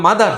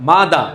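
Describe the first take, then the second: First: মাদার ending in a sounded R; Bengali-style মাদার with final R; everyday local form. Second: মাদা ending on an open "da"; British-style মাদা, no R; silent final R. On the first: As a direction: close মাদার on an audible R. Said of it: "আমরা বলি না মাদার". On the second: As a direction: drop the R from মাদা. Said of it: "না, মাদা". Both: Shown as a demonstration.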